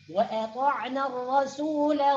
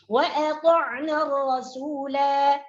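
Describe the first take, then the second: First: The final vowel is short, running into next words. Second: The final vowel is lengthened at the stop. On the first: The reciter continues without stopping. "Ketika diwasal" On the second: The reciter stops at this word. "Ketika diwaqaf alifnya berfungsi"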